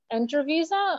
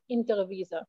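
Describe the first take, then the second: First: The first word starts with an 'en' sound. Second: The first word starts with an 'in' sound.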